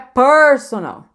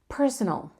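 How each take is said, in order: First: The first vowel is drawn out long. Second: The first vowel is short and quick. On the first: The speaker calls it wrong. "não é personal" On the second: The speaker calls it right. "lembra que é curto"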